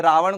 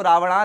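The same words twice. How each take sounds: First: Said in the usual way. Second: रावणा with an added long final "aa"; anglicised reading. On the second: Shown as a demonstration. Teacher showing English spelling to students, रावणा read with long final "aa". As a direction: end रावणा on an open "naa". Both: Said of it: "रावण को रावणा लिखा जाता है".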